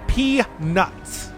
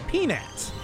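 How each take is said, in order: First: Each syllable is said slowly and separately. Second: The word is said quickly and casually.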